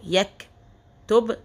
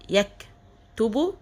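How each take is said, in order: First: The word ends on the consonant b. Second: The word ends with a short u vowel. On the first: "لو وقفت على كلمة اخر حرف بسكنها" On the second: "هو عليه ضمة"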